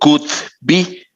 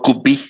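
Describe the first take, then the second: First: The d sound in could is clearly pronounced. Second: The d sound in could is dropped. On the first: The speaker calls it wrong. "pero no digo could be" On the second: The speaker calls it right. "digo could be"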